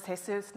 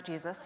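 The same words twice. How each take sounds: First: Jesus said the Spanish way, hay-SOOS, stress on the last syllable; Spanish pronunciation. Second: Jesus said the English way, GEE-zus, stress on the first syllable; English pronunciation. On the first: Correcting the pronunciation of a colleague's name, Spanish hay-SOOS. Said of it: "thank you for the accent". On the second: Contrasting the wrong English name with the right one, English GEE-zus. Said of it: "It is Jesus". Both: Shown as a demonstration.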